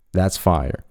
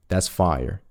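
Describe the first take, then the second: No difference in how they are said.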